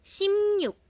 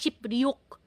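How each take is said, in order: First: The middle of the word has 'm' then 'n'. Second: The middle of the word has 'p' then 'r'. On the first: The speaker calls it right. "Simnyuk ang basa" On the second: The speaker calls it wrong. "hindi na shipryuk"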